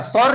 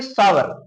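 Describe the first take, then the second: First: सावर clipped to a short "sor", the wrong way; wrong pronunciation. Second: सावर said in full as "saa-var"; correct pronunciation. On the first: Teacher shows students the wrong way: सावर as "sor". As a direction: say सावर as a quick "sor" to show the mistake. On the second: Teacher gives students the right सावर: clear "saa-var". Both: Shown as a demonstration. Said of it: "सावर नहीं पढ़ेंगे".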